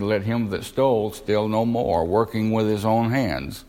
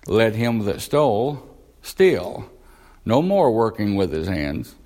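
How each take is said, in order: First: The pause comes after 'no more'. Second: The pause comes right after 'steal'.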